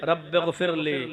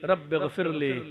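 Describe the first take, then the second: First: It is said slowly, in a pleading way. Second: The same.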